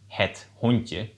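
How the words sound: The word ends with a 'je' sound. "instead of saying the dog, de hond, het hondje"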